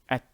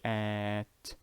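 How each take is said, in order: First: The vowel is short and quick. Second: The vowel is drawn out long. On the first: The speaker calls it right. "very quickly. Do not elongate" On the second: The speaker calls it wrong. "Do not elongate. Do not say at"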